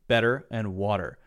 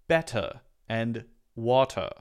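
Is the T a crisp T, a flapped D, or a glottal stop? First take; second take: flapped D; crisp T. First: The T is a quick, light D sound. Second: The T is pronounced as a clear T. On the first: This is the typical American way. "Americans will say this very interesting thing called a light D sound" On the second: This is a more common British way. "for British people to say better and water, more"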